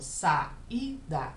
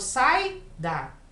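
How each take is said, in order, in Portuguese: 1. As duas vogais são ditas em sílabas separadas. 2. As duas vogais ficam juntas numa sílaba só. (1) "Eu falo saída. Então é separado" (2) "Eu não falo sai da"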